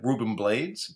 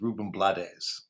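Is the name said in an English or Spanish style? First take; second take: English; Spanish. First: The name is said in an English style. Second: The name is said in a Spanish style. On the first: This is how most people say it. The speaker calls it wrong. "usually said" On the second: This is how the name is really pronounced. The speaker calls it right. "the actual pronunciation"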